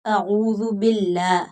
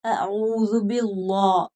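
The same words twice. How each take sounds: First: अऊज़ु बिल्लाह with a light "llaah"; thin lam. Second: अऊज़ु बिल्लाह, slow, with a dark "llaw"; heavy lam. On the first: Teacher models the correct reading, thin lam in बिल्लाह. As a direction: keep the l of बिल्लाह thin and open. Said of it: "लाम को बारीक पढ़ेंगे". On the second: Teacher shows what not to read, full-mouthed lam in बिल्लाह. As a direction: thicken and round बिल्लाह into "billaw". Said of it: "पुर नहीं पढ़ेंगे". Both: Shown as a demonstration.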